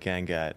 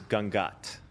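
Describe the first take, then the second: First: The name has an Americanized pronunciation. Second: The name has its Indian pronunciation. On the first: This is the easier version Americans use. "it's way easier for you people to say Gangat" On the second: This is how the name is really pronounced. "I'm going to give you the proper Indian pronunciation"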